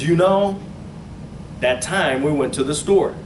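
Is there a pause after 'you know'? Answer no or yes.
yes. There is a pause after 'you know'. The 'you know' is only a filler before a statement. "I don't hear it as"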